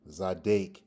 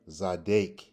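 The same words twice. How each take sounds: First: The second syllable has an A vowel. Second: The second syllable has an A vowel.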